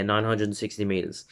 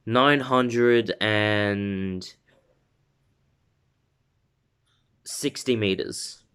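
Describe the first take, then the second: First: Said in the usual way. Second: Very slow, with a long pause after "and"; game-show style suspense; suspenseful reveal. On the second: Shown as a demonstration. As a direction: draw out "nine hundred and", then drop "sixty meters". Dramatic reveal, then repeated normally.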